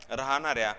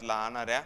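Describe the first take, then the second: No difference in how they are said.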